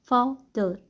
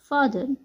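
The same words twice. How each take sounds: First: फादर broken in two, "faw... dur"; split syllables. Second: Said in the usual way. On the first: Shown as a demonstration. Teacher showing how A is pronounced, फादर syllable by syllable. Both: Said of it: "क्या pronounce किए थे".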